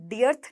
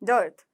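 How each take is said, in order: First: The vowel sounds like 'ear'. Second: The vowel sounds like 'ur'. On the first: The speaker calls it wrong. "डियर्थ नहीं है" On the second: The speaker calls it right. "डर्थ डर्थ"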